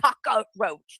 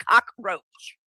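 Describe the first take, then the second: First: "cockroach" said as cock-a-roach, an extra "a" syllable in the middle; wrong pronunciation. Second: "cockroach" said in two clean syllables, cock-roach; correct pronunciation. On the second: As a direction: say "cockroach" crisply, no extra middle sound. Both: Shown as a demonstration. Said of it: "There's no A in there".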